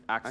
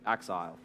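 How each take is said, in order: First: The name ends with an 'el' sound. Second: The name ends with an 'ile' sound. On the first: The speaker calls it right. "like Excel, but Axel" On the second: The speaker calls it wrong. "as opposed to Axile, which is what I thought it was"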